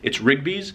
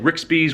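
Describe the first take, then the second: First: The middle consonant is a hard G sound. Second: The middle consonant is a KS sound. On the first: The speaker calls it right. "R I G B Y apostrophe S" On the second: The speaker calls it wrong. "with like an X in the middle"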